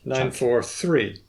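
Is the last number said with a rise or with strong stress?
stress. The last number carries a strong accent. Only the last number will be remembered better. "the one where we actually accent the word"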